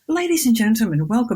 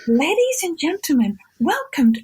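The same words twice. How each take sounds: First: It is said in a plain, natural voice. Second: It is said in a high, put-on, inflected voice. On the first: The speaker calls it right. "why doesn't she go" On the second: The speaker calls it wrong. "her voice sounds weird, and I don't like the way"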